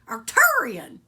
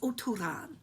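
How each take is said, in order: First: The name begins with an 'Ark' sound. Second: The name begins with an 'O' sound. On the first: The speaker calls it wrong. "we mispronounce their name and call them Arcturians" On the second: The speaker calls it right. "It's Oturan"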